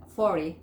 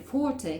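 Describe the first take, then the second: First: American "forty" with the T dropped, "fory"; American T-less "forty"; American pronunciation. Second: British "forty" with a clear T; British "faw-tee"; British pronunciation. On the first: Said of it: "Le sacan esa T". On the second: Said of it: "que sería la forma británica". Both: Shown as a demonstration.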